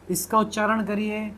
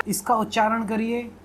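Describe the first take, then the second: No difference in how they are said.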